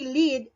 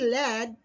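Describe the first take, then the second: First: The vowel is long, like in 'seed'. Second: The vowel is short, like in 'bed'. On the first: It means to direct. "it means to direct" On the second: It names a metal element. "it's an element"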